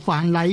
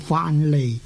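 First: The name is read with its colloquial pronunciation. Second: The name is read with its formal pronunciation. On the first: The speaker calls it wrong. "不过是俗读" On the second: The speaker calls it right. "正确的读音呢应该是读做范蠡"

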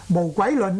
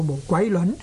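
First: The last syllable keeps its original tone. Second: The last syllable takes a changed tone. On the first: This is the standard reading. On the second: This is the colloquial reading.

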